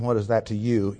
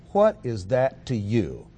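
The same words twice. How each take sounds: First: Said in the usual way. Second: Slowed, leaning on "you"; stressed you. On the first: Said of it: "The words "you" are in juxtaposition". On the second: Shown as a demonstration. Preacher repeating the verse to show the emphatic "you". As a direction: weigh every word, landing on "you". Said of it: "is emphatic".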